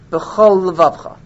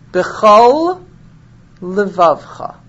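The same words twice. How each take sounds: First: The two words are slurred together. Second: The two words are kept clearly separate. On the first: The speaker calls it wrong. "We don't want you saying" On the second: The speaker calls it right. "not to slur one word into the next. For example"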